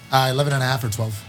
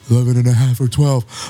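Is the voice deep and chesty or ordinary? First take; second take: ordinary; deep. First: The voice is ordinary and casual. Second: The voice is deep and booming from the chest.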